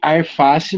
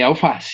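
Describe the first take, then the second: First: The first syllable ends in an R sound. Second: The first syllable ends in an L sound. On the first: This is the informal spoken variant. The speaker calls it wrong. "que arface, na verdade, o correto, né, é alface" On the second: This is the formal standard variant. The speaker calls it right. "o correto, né, é alface"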